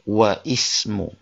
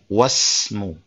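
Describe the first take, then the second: First: The first vowel of ismu is pronounced separately. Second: The words join with the first vowel dropped. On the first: The speaker calls it wrong. "bukan wa ismu" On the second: The speaker calls it right. "dia mengatakan wasmu"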